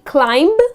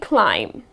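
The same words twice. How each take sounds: First: The final b sound is pronounced. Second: The final b sound is silent. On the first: The speaker calls it wrong. "It's not going to be climb" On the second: The speaker calls it right. "It's just going to be climb"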